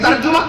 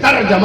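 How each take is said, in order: First: The middle vowel is a 'u' sound. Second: The middle vowel is an 'a' sound. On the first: The speaker calls it wrong. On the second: The speaker calls it right.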